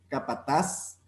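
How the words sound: The final z is pronounced like an s. This is the Latin American pronunciation. "pronunciar la Z como S"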